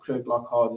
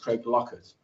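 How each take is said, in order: First: The ending is pronounced as a full 'hart'. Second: The ending is pronounced as a short 'et'. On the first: It is the spelled-out form used elsewhere in the UK. The speaker calls it wrong. "as people also United Kingdom call them" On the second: It is the local Scottish form. The speaker calls it right. "In Scotland, uh, the pronunciation"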